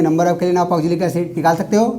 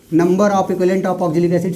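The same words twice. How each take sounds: First: Said in the usual way. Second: Slow dictation. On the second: Shown as a demonstration. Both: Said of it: "सारे question एक साथ लिख लो".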